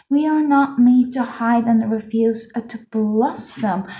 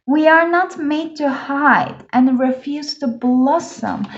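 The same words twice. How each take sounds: First: Said in the usual way. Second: Slow, deliberate reread with "not" and "blossom" stressed; emphatic affirmation. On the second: Real, not acted. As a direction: declare it slowly, leaning on "not" and "blossom". Repeats it as an affirmation.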